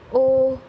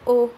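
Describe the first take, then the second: First: The word is drawn out for a long time. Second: The word is said briefly and quickly. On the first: "द long ओ" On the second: "द short ओ"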